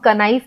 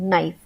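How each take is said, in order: First: The word begins with a K sound. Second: The word begins with an N sound. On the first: The speaker calls it wrong. "हम कनाइफ तो नहीं बोल रहे हैं" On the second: The speaker calls it right. "के silent है, नाइफ यानी एन का उच्चारण"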